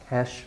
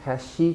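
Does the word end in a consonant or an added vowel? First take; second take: consonant; added vowel. First: The word ends cleanly on the sh sound. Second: An extra vowel is added after the final sh. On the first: The speaker calls it right. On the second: The speaker calls it wrong.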